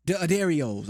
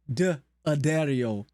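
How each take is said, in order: First: D'Addarios run together in one smooth word; confident D'Addarios said in one go; settled pronunciation. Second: D, Addario split slowly into two parts; hesitant slow try at D, Addario; slow trial pronunciation. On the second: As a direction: sound out D, Addario carefully, syllable by syllable. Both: Shown as a demonstration. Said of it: "How you say that?".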